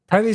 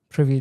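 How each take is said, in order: First: The first vowel sounds like the vowel in 'private'. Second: The first vowel sounds like the vowel in 'privy'. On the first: The name suggests something private. "sounds like something giving like private" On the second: The name suggests being privy to something. "is like I'm privy to something"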